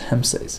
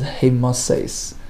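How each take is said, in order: First: The word is said with two syllables. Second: The word is said with three syllables. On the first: This is the common pronunciation. "it's commonly pronounced as Hemses" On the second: This is a less common pronunciation linked to melting. "he uh, pronounced it as Hemases"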